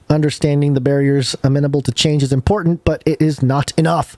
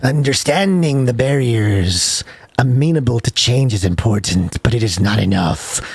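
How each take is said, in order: First: It is read in a natural speaking voice. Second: It is read in a put-on sinister character voice.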